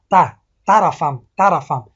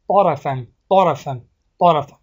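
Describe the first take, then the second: First: ته طرفم said with a thin light t instead of heavy ط; wrong pronunciation demo. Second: طرفم with a heavy, full-mouthed ط; correct pronunciation. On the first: Teacher showing students the wrong way. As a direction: deliberately mispronounce طرفم as ته-رفم, slowly. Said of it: "نادرست اگر تلفظ کنیم". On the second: Teacher modelling the right way for students. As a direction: say طرفم with a thick emphatic ط and short a. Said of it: "طرفم نه". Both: Shown as a demonstration.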